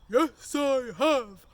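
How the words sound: It is said in a big, loud voice. "have you brought your big voice?"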